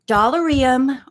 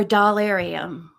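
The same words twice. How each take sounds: First: "Dollarium" with an unstressed "er" in the middle; first accent placement. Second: "Dollarium" with stressed "AIR" in the middle; second accent placement. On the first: Vlogger asking viewers where the accent goes, "Dollarium" with "er". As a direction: say "Dollarium" as "doll-er-ee-um". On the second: Vlogger asking viewers where the accent goes, "Dollarium" with "AIR". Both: Shown as a demonstration. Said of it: "what syllable would you put the accent on".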